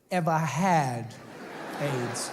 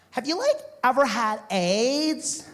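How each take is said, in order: First: "had" drawn out slowly, "aids" dropped low after a pause; stress on HAD. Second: Put-on high, slow surfer-girl question; California babe. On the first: Retold or imitated. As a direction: dwell on "had", then let "aids" fall. Quotes her, dwelling on the word had. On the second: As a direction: ask naively in a beach-girl lilt, stretched out. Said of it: "California babe".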